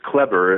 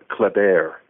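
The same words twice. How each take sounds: First: The name is said with an American pronunciation. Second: The name is said with a French pronunciation. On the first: This is the family's adapted form of the name. "the way my name is pronounced is Kleber. It's the Americanization" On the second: This is the original form of the name. "his name, which was Kleber"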